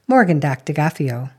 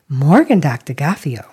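First: The praise sounds matter-of-fact and unsurprised. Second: The praise sounds astonished and delighted. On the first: The good result was expected. "One said, well, I expected that" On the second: The good result came as a surprise. "the other said, well, that's a surprise"

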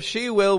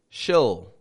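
First: Both words are said in full. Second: The words are merged into one syllable. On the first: "Instead of she will" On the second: "we're going to say she'll"

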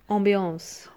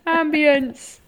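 First: The word is said in a sultry French accent. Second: The word is said in a plain English accent. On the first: "you can't say it without the sexy, sultry accent" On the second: "Ambience just doesn't sound the same"

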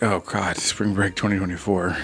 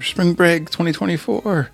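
First: It is said with weary dread. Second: It is screamed with excitement.

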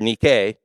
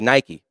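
First: It is pronounced the ancient Greek way. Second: It is pronounced the usual English way.

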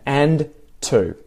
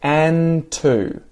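First: The D is pronounced and the words are separated. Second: The D is dropped and the words are joined. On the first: "This is me really enunciating well, pronouncing the words well, and separating them" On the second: "when I join them, the D ... disappears. No D"

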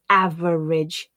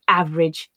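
First: The word is said with an extra middle syllable. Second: The middle syllable is dropped from the word. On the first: The speaker calls it wrong. "my learners would often read as average" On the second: The speaker calls it right. "they tend to be reduced to average"

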